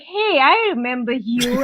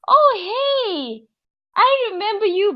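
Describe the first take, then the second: First: The greeting sounds unfriendly. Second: The greeting sounds friendly.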